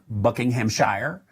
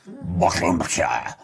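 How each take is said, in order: First: It is said in an American accent. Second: It is said in a slurred British accent. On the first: "In the United States, we would say Shire" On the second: "the British kind of pronounced that Shire kind of like a drunken sailor"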